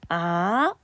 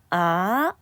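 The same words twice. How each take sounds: First: The pitch rises from middle to high. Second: The same.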